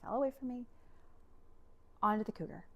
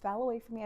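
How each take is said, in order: First: Halting, mildly choked retelling; imitated sobbing. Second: Said in the usual way. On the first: Wife telling husband about the shattered door, mildly imitated sobbing. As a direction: barely get it out, as if tearful. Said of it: "sobbing and barely getting it out".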